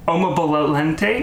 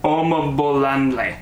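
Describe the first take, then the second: First: The name has a t sound near the end. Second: The name has no t sound at all. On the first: The speaker calls it wrong. "because I know I messed it up" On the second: The speaker calls it right. "There we go. There's no T in there"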